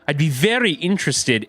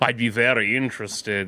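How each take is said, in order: First: It sounds sincerely and genuinely interested. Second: It sounds loaded, with a hidden insinuating meaning.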